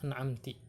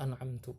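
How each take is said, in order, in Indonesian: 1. Kata ini diakhiri dengan vokal i. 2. Kata ini diakhiri dengan vokal u. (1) "ka an'amti bikasrin" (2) "dibacanya dengan dhammah an'amtu"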